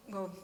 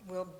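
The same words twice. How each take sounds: The two takes are said the same way.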